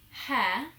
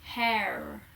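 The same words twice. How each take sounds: First: "hair" with a silent R; non-rhotic "hair", no R heard; British "hair". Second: "hair" in an American accent, R fully sounded; American "hair" with a strong final R. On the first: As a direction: say "hair" the British way, ending on the open vowel. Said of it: "I would say hair". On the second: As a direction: imitate an American saying "hair". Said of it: "whereas Americans would say hair". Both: Shown as a demonstration.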